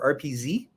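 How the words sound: The final letter is said the American way.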